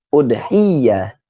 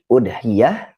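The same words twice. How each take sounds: First: The y sound is held and doubled. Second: The y sound is short and single. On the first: "atau juga dengan tasdid" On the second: "Bisa di takhfif tanpa adanya tasdid"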